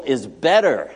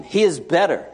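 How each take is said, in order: First: Is BETTER, weight landing on "better" with a falling close; stress on BETTER. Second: He IS better, leaning hard on "is"; stress on IS. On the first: Preacher to congregation, landing hard on "better". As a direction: hit "better", keep "is" light. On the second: Preacher to congregation, stressing "is" in "he is better". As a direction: punch "is", let "better" fall away. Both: Real, not acted.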